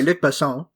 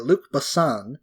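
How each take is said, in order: First: The name is said with a French accent. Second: The name is said with an English accent. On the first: The speaker calls it right. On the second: The speaker calls it wrong.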